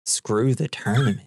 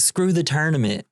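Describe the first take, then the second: First: Lightly acted echo in near-usual pitch; retold echo. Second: Higher-pitched mock outburst of impatience; lightly acted fed-up dismissal, pitched up; retold dismissal. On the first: Walter repeating the dude's words back, understated mock echo. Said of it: "Walter's like". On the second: The dude tired of Walter, higher-pitched mock dismissal. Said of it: "he's like".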